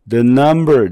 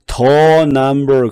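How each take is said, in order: First: The word 'the' has a reduced schwa vowel. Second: The word 'the' has a full vowel. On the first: The speaker calls it right. "the 중성모음으로 바뀌었어요" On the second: The speaker calls it wrong. "그러면 안 돼요"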